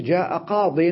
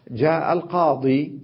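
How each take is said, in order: First: جاء قاض with قاض said "qaadin"; nunated qaadin, yaa dropped; tanween on daad. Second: جاء القاضي ending in a long "ii"; al-qaadii, yaa fully pronounced; final yaa sounded. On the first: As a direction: end قاض in a short "-in", no long ii. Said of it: "ونونت الضاد". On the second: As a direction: say القاضي slowly with the full final ii. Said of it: "في ياء". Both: Shown as a demonstration.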